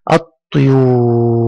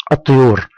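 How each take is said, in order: First: الطيور slowly, with a very long oo; drawn-out madd. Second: الطيور said briskly, oo kept short; quick reading. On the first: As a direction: hold the oo of الطيور for students to repeat. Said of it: "تنطقها وتستخرج حرف المد". (مدّ الواو طويلًا في الطيور) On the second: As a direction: read الطيور quickly without stretching it. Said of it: "أنا أنطق الكلمات بسرعة". (نطق الطيور بسرعة دون مدّ) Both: Shown as a demonstration.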